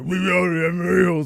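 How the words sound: It is said in a gravelly Batman voice.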